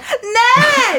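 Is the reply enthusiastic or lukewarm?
enthusiastic. The reply sounds bright and enthusiastic.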